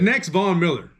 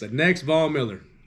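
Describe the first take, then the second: First: It is said louder. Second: It is said at normal volume.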